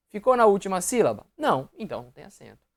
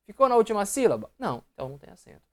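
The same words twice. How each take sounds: The two takes are said the same way.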